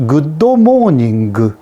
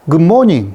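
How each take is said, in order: First: Japanese accent. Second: Said in the usual way. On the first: Shown as a demonstration. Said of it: "이런 식으로 한 거예요". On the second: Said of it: "이것을 good morning".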